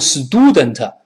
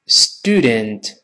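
First: The first syllable sounds like Chinese 'du'. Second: The first syllable has a crisp English 't'. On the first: The speaker calls it wrong. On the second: The speaker calls it right.

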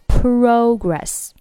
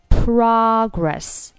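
First: It is said with a British accent. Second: It is said with an American accent.

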